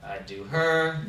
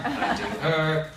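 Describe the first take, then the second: First: Said in the usual way. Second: Slow, drawn-out I do her; slower, laughing take of I do her; slow deliberate swipe. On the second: Retold or imitated. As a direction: savour each word like a lazy swipe. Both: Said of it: "Or for men".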